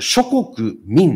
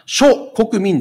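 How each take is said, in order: First: The word is grouped as shokoku plus min. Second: The word is grouped as sho plus kokumin. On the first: It refers to the peoples of all nations. The speaker calls it right. "諸国民なんです" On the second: It refers to the various people of one nation. The speaker calls it wrong. "諸国民ではなく"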